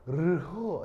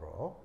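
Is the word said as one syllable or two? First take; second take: two; one. First: The consonants are spoken separately, in two syllables. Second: The consonants merge into a single syllable. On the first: This is the proper pronunciation. "제대로 발음은 르호 이건데" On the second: This is how people usually read it. "보통 읽을 때는 로 이렇게 읽어요"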